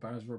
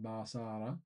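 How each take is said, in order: First: The name is said in a plain English way. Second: The name is said in a Japanese-style way. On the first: "I'm not sure if that is the correct pronunciation" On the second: "more like the Japanese style"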